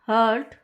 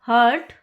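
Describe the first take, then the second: The two takes are said the same way.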